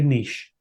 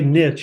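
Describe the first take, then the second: First: It is said the Northeastern or Californian way. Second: It is said the Southern way.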